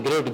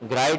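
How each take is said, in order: First: The vowel is a short i. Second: The vowel sounds like eye. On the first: The speaker calls it right. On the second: The speaker calls it wrong.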